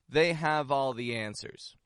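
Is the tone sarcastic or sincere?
sincere. It is said in a sincere, straightforward tone. The speaker trusts their knowledge. "this phrase can be used in a sincere context"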